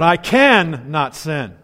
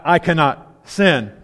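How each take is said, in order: First: 'Can' and 'not' are said slowly and separately. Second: 'Can' and 'not' are run together as one word. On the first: Being able to refrain from sin. The speaker calls it right. "but I can not sin. I'll say that slowly" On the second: Being unable to avoid sin. The speaker calls it wrong. "Not I cannot sin"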